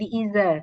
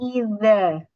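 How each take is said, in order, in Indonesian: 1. Huruf tengah itu bunyi z biasa. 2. Huruf tengah itu bunyi th bersuara. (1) "Tidak boleh menjadi iza" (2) "huruf zal"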